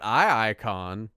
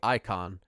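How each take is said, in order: First: It starts with a doubled eye sound. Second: It is said like the ordinary word icon. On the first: This is the speaker's own joking version. "but I've been calling it iIcon" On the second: This is the intended pronunciation. "I think it's just supposed to be Icon"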